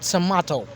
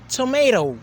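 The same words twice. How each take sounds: First: It is said with a British accent. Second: It is said with an American accent. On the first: "While British, we say tomato" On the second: "in American English, they say tomato, like they have a R there"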